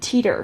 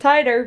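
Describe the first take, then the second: First: The first vowel is an ee sound. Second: The first vowel is an eye sound. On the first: The speaker calls it wrong. "I said teeter. ... I'm not saying this word right" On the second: The speaker calls it right. "it's apparently titer"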